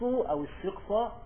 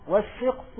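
First: الشقصة said "ash-shiqsa", final fatha voiced; accusative ending. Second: والشقص said "wash-shiqsu", final damma voiced; nominative ending. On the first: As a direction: end الشقصة on a short "a". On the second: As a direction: end والشقص on a clear "u". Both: Shown as a demonstration. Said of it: "لو عطفناها على اسم أن".

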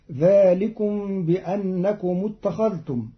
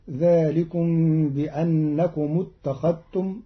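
First: Said in the usual way. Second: اتخذتم with dhal merged into t, "ittakhattum"; Qalun reading. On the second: Shown as a demonstration. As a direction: swallow the ذ of اتخذتم into a doubled t. (اتخذتم بإدغام الذال في التاء) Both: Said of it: "بإدغام الذال في التاء".

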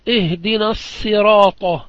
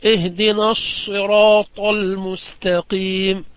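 First: الصراط said as sirat with a plain s, slow. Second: الصراط with a pure, heavy emphatic sad, slow. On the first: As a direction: swap the emphatic sad for a light sin in الصراط. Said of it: "بالسين". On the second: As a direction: hold a clean sad in الصراط, no z. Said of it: "بالصاد الخالصة". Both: Shown as a demonstration.

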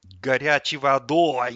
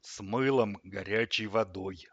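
First: Loud, slow, grumpy echo; disgruntled grumble. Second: Slow, stern ruling from the fridge; curt command. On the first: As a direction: throw it back in loud displeasure. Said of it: "недовольно буркнул тот". (недовольно, громко ворча) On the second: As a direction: lay it down with no room for argument. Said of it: "отрезал холодильник". (строго, как отрезав) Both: A narrator's reading.

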